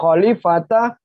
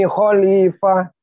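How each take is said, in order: First: The word ends with a full ta syllable. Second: The word ends with a soft h sound. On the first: The speaker calls it wrong. "Bukan khalifata" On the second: The speaker calls it right. "tapi khalifah"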